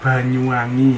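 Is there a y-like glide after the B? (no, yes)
no. The B is plain and ends in i.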